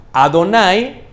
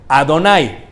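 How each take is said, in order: Both takes have the same delivery.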